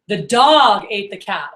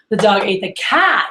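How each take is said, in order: First: The word dog carries the emphasis. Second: The word cat carries the emphasis. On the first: It was the dog and not another animal. "it was the dog, not something else" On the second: It was the cat, not the mouse. "the cat, not the mouse"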